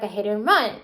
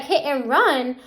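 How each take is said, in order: First: Said in the usual way. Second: Mildly incredulous echo; retold disbelief. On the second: Mom challenging the officers' charge, retold disbelief. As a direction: throw the charge back as a doubting question.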